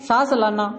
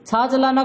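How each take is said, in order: First: The first word begins with an 's' sound. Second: The first word begins with a 'ch' sound. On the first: This is how speakers of the dialect say it. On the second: This is the standard way of saying it.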